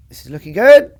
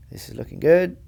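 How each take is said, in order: First: Much louder rising cheer; excited. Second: Said in the usual way. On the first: Real, not acted. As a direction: lift it loud as the ball nears. Shot rolling toward pin.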